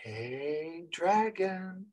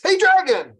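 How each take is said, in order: First: Hushed, timid greeting to a dragon; quiet. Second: "Hey, dragon" called out high and loud; bold, loud hail to a dragon. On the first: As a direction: say "Hey, dragon" softly, almost to yourself. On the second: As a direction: shout "Hey, dragon" across the cave. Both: Shown as a demonstration.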